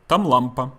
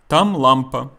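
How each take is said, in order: First: The phrase is said quickly, run together. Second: The phrase is said at a normal pace.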